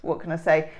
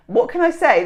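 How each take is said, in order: First: Said in the usual way. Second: "What can I say?" lifted high and loud on I; higher, louder repeat. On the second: Shown as a demonstration. To herself, rehearsing the line, raised and emphatic. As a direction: pitch it up, hit I. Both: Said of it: "repeats line louder".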